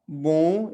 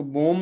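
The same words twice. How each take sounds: First: बो loud and long with nasal vowel; stretched nasal बो without an m; nasal ending. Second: बोम with a fully closed m; बोम ending on a clear m; wrong pronunciation. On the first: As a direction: hold बो through the nose, lips open. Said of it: "नाक में ही रह जाएंगे". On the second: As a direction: say बोम with lips shut at the end. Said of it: "इसको बोम नहीं पढ़ना है". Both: Shown as a demonstration.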